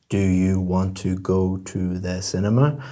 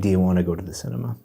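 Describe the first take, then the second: First: Every word is pronounced separately and fully. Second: The words are run together in connected speech.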